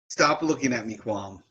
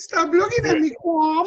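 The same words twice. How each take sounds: First: It is said in the speaker's normal voice. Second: It is said in a put-on character voice.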